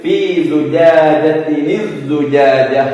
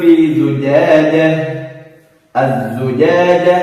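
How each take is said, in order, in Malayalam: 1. തുടർന്ന് ഓതുന്നു, 'ni' എന്ന ശബ്ദം ചേർത്ത് ബന്ധിപ്പിക്കുന്നു. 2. ആദ്യ വാക്കിന് ശേഷം നിർത്തുന്നു, ബന്ധിപ്പിക്കാതെ അവസാനിക്കുന്നു. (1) "കൂട്ടി ഓതുന്ന സമയത്ത്" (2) "നിർത്തിയോതെങ്കിലും"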